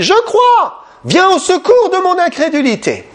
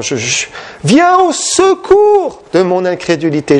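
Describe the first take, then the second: First: Desperate cry. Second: Said in the usual way. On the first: Retold or imitated. Father crying out to Jesus for help, high desperate plea. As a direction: cry out to be rescued from doubt, voice climbing very high. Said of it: "il a crié". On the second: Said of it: "C'était un cri de détresse".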